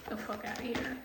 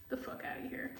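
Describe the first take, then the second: First: Said in the usual way. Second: Whispered "The fuck outta here"; under-the-breath dismissal. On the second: Real, not acted.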